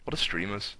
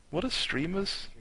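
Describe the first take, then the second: First: Said in the usual way. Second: "streamers" asked much higher in disbelief; incredulous repeat. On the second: Shown as a demonstration. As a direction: ongelovig hoog herhaald "What are streamers?".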